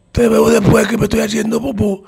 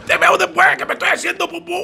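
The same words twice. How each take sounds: First: Higher, pushed-out strained voice; strained, barely able to speak. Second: Much higher, fast, strained panic; desperate blurt. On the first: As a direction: squeeze the words out as if you can't talk. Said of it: "sin poder hablar". (voz forzada, casi sin poder hablar) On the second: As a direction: spit it out on your way to the bathroom. (soltarlo desesperado, agudo y rápido) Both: Retold or imitated.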